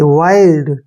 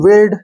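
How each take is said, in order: First: The vowel is a long 'eye' sound. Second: The vowel is a short 'i' sound. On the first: The speaker calls it right. "ऐसे वाइल्ड" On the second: The speaker calls it wrong. "ऐसे नहीं पढ़ना है"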